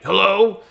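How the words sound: The word is said in an angry, irritated way. "or it could be mad"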